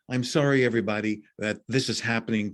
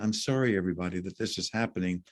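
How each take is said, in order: First: The tone is harsh and curt. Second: The tone is gentle and soft. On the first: The speaker is just saying what is expected. The speaker calls it wrong. "I'm using particularly perhaps harsher tones" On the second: The speaker truly wants to make a difference. The speaker calls it right. "I could also be very gentle saying"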